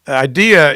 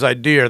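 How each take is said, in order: First: The word ends in a plain vowel, no R. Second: The word ends with an added R sound.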